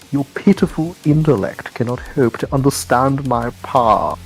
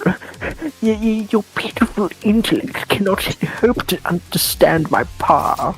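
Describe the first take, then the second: First: It is said in a steady voice. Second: It is said in a trembling voice.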